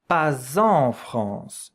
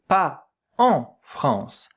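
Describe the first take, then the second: First: A z sound links pas to en. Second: No z sound links pas to en. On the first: The speaker calls it right. "I have to hear that sound, like if it was a Z" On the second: The speaker calls it wrong. "I don't say pas en France"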